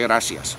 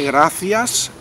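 First: The c is said with an s sound. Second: The c is said with a th sound. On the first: "a veces le sale la S" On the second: "cuando quiere sí que la C la pronuncia"

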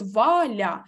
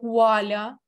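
First: The name begins with a clear v sound. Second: The name begins with a w-like sound. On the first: "ми чітко чуємо звук «в»" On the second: "з якимись відтіночками «у»"

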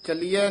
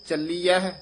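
First: The word is said without an h sound. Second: The word is said with an h sound. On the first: The speaker calls it wrong. "ਚੱਲੀਐ ਨਹੀਂ ਕਹਿ ਦੇਣਾ" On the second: The speaker calls it right. "ਹਾਹਾ ਵੀ ਉਚਾਰਨ ਕਰਨਾ"

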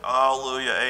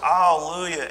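First: It is said weakly with little energy. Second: It is said loudly with lively energy. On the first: The joy is missing from the response. The speaker calls it wrong. "you're like, ... No! Say it with gumption" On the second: Real joy is being expressed. The speaker calls it right. "we should shout for joy"

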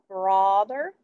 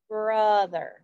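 First: The first vowel sounds like aw. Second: The first vowel sounds like uh. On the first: The speaker calls it wrong. "Does it say aw?" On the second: The speaker calls it right. "It says like brother, like from"

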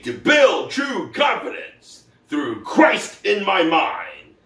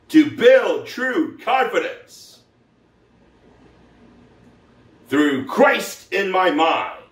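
First: It is said at a normal speed. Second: It is said slowly, with pauses.

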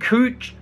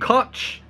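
First: The vowel is a long 'oo' sound. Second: The vowel is a short 'u' sound. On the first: The speaker calls it wrong. "Can't believe I said cooch" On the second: The speaker calls it right. "it's cutch"

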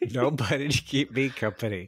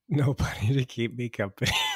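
First: It is said in a livelier, less subdued way. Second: It is said in a soft, subdued, weepy way.

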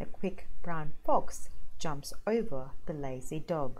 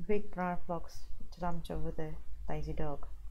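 First: Each word is articulated clearly and separately. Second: The words are mumbled together with little mouth movement. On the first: The speaker calls it right. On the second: The speaker calls it wrong.

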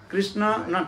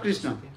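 First: The last syllable is given emphasis. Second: The last syllable is given no emphasis. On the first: It names the one who is dear to Krishna. The speaker calls it right. "Emphasis given" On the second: It names Krishna himself. The speaker calls it wrong. "not Krishna"

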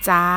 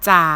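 First: The pitch stays level in the middle. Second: The pitch stays low throughout.

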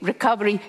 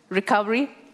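First: The word sounds enthusiastic, like an exclamation. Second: The word sounds doubtful, like a question. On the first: The recovery is welcomed with optimism. "Americans would say recovery, yay, exclamation mark" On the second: The recovery is met with skepticism. "Norwegians, recovery, doubt, question mark"

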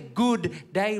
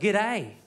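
First: The words are said in full as two words. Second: The words are squeezed into one short word. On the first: The speaker calls it wrong. "don't say good day, There's two O's in that good" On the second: The speaker calls it right. "Hold the O's. Just say g'day"

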